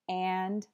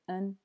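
First: The word is said with a full clear vowel. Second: The word is said with a reduced schwa vowel.

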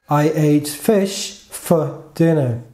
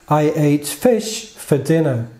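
The two takes are said the same way.

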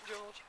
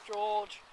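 First: It is said in her natural voice. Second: It is said in a put-on man's voice.

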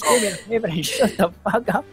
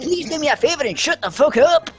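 First: The accent is the speaker's own natural one. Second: The accent is put on and exaggerated. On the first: "There you go" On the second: "I think [name] is trying to put on an accent there"

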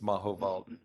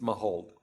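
First: The name is said with a German pronunciation. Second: The name is said with an English pronunciation. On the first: "If it's in Germany, it's Mahovald" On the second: "It's Mahold"

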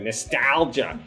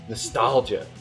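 First: The word is said in a jokey Southern accent. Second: The word is said in a plain accent. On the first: "I say nostalgia like a stupid Southern joke" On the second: "I like how you say it"

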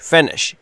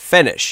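First: The first vowel is a short i. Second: The first vowel is a short i.

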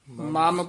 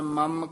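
First: The word is said softly with a long vowel. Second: The word is said tightly with a short vowel. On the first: The speaker calls it right. "ਮਾਮ ਪੋਲਾ ਹੀ ਬੋਲਣਾ" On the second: The speaker calls it wrong. "ਮਮ ਕਸ ਕੇ ਨਹੀਂ ਬੋਲਣਾ"

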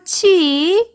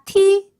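First: The syllable starts with a ch sound. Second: The syllable starts with a plain t sound. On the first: The speaker calls it right. "요거 치" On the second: The speaker calls it wrong. "이런 식으로 타 계열로 다 발음을 하세요. 아닙니다"

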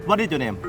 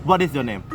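Both takes have the same delivery.

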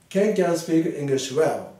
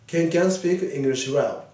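Both takes have the same delivery.

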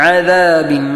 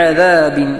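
No difference in how they are said.

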